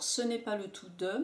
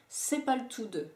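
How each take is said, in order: First: Said carefully, with the full 'ne' pronounced. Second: Said casually, with the 'ne' left out.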